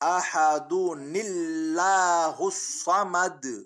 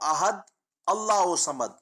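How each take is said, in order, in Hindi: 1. शब्द एक-दूसरे से जुड़कर बोले जाते हैं, बीच में एक हल्की 'n' ध्वनि के साथ। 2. पहले शब्द के बाद रुकना है।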